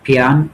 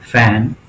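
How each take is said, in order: First: The word starts with an aspirated p sound. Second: The word starts with an f sound. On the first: The speaker calls it wrong. "అలా రాయడం వలన వీటిని ఎలా పలకాలో చూడండి... అది సరి అయిన ఉచ్చారణ కాదు" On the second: The speaker calls it right. "వందకు వంద శాతం స్పష్టమైన ఉచ్చారణతో ఇలా రాయవచ్చు"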